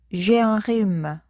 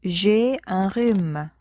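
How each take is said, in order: Both takes have the same delivery.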